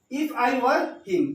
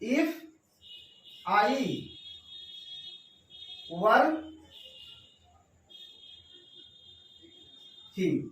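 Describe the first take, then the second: First: "if I were him" drawn out very slowly as one phrase, stress on "were"; whole phrase slowly. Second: "if", "I", "were", "him" each set apart by long pauses; word-by-word dictation. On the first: Teacher reads the full example back to students, very slow with stress on "were". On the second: Teacher dictating the example to students, long pauses between words. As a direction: spell it out one word at a time. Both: Shown as a demonstration. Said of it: "अगर इस तरह इसको ऐसे लिखेगा".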